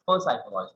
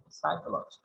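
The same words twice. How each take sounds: First: "psychology" mispronounced with a "per" at the front; wrongly sounded P. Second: "psychology" starting on a clean "s" sound; silent P. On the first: Teacher showing the class a mistake, wrongly sounded P in psychology. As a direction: sound the P as its own syllable before "psychology". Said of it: "no, it's psychology". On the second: Teacher correcting the mistake for students, silent-P psychology. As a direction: drop the P and begin "psychology" with "sai". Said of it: "but the P is silent". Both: Shown as a demonstration.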